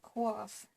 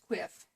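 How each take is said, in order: First: The vowel sounds like 'ah'. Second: The vowel sounds like 'ih'. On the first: The speaker calls it wrong. "I was pronouncing it quaff" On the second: The speaker calls it right. "it's quiff"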